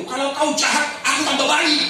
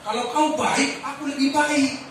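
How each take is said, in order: First: Firm proclaimed answer ending in a shout; declared blessing. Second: Mock common man, higher pitch; sneering everyman retort; worldly tit-for-tat voice. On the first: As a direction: proclaim the right way boldly. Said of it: "Sekarang jangan bilang begitu". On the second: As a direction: voice the ordinary person's grudge. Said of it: "kita akan bilang begini". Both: Shown as a demonstration.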